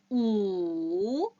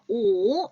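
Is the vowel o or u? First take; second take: u; o. First: The vowel sounds like u. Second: The vowel sounds like o. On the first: The speaker calls it right. "우 소리 내셔야 돼요" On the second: The speaker calls it wrong. "오 이렇게 읽으시는 분들 계시는데요"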